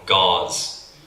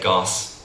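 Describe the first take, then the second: First: The word ends with a voiced z sound. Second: The word ends with a voiceless s sound. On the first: The speaker calls it right. "they want to say, I don't know, gauze" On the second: The speaker calls it wrong. "they didn't pronounce the, the Z properly"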